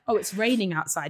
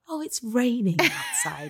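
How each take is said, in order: First: The voice sounds flat and disappointed. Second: The voice sounds bright and delighted. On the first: The rain is seen as a bad thing. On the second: The rain is seen as a good thing.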